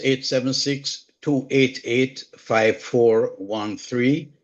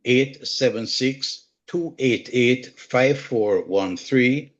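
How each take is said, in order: First: Slow, careful number reading; slow, deliberate phone number dictation. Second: Slow, careful number reading repeated; slow, deliberate phone number repeat; slow dictation. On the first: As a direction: spell the digits out slowly for listeners. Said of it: "dictating phone number on WhatsApp". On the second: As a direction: read the digits out slowly once more. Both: Real, not acted.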